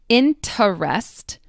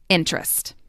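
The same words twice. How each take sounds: First: The unstressed middle vowel is clearly pronounced. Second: The unstressed middle vowel is dropped entirely. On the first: "I will emphasize them so you can hear them" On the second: "these syllables will often get dropped entirely"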